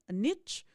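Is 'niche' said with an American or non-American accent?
American. Niche is said the American way.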